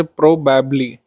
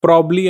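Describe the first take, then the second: First: "probably" with every syllable kept; full form. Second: "probably" shortened to prob-ly; syllable dropped. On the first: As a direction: say "probably" in full, pro-bab-ly, slowly. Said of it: "syllable होता है उनको remove किया जाता है". ("probably" के सारे syllable अलग-अलग बोलें) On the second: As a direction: drop the middle "ab" of "probably". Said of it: "किस तरीके से हम लोग लिख सकते हैं". ("probably" को दो सिलेबल में, प्रॉब-ली बोलें) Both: Shown as a demonstration.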